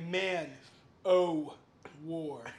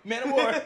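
First: The name is said slowly, word by word. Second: The name is said quickly, run together. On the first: The speaker calls it wrong. "if you say it slowly" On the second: The speaker calls it right. "you have to say it fast enough"

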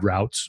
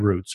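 First: It uses the southern regional pronunciation. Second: It uses the non-southern regional pronunciation.

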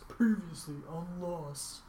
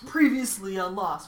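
First: It is said in a put-on announcer voice. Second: It is said in a normal speaking voice.

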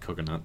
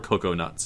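First: The word is said in a plain, ordinary way. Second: The word is drawn out in an affected way.

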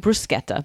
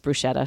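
First: The 'ch' is said as a hard k sound. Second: The 'ch' is said as a soft sh sound. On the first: "it should be bruschetta" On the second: "everybody says bruschetta"

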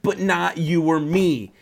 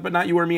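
First: The reading is lively with lots of inflection. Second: The reading is flatter with less inflection. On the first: The speaker calls it wrong. "I put too much inflection in that" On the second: The speaker calls it right. "Let me read it one more time"

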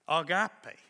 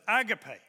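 First: It is said with the Greek pronunciation. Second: It is said with a common English pronunciation. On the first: "the Greek pronunciation is agape" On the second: "many of us pronounce that as agape"

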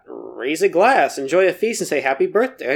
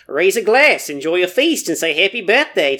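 First: It is read in the speaker's usual accent. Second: It is read in a New Zealand accent.

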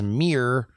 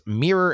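First: It is said in a Baltimore accent. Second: It is said in a standard accent.

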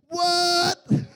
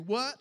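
First: The word is said with a cocky, swaggering attitude. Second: The word is said plainly, without any swagger.

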